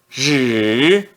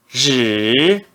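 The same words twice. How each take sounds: First: The pitch dips low, then rises. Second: The same.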